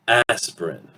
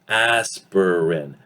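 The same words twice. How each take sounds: First: The middle vowel drops, leaving two syllables. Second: The word is said with three full syllables. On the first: "will reduce, disappear through elision" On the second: "three syllables"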